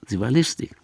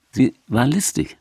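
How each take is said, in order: First: Whispered aside, sly; sly whispered repeat. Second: Said in the usual way. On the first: Shown as a demonstration. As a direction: whisper it like a secret.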